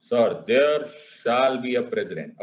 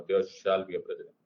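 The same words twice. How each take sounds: First: Slow, weighty and louder; said loudly. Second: Said in the usual way. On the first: Acted. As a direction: declare it slowly, like a big pronouncement. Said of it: "जो आपने इतने जोर से बोला". (जोर से, धीरे-धीरे और भारी आवाज़ में) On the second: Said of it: "इतना विचार विमर्श वाली क्या लाइन थी".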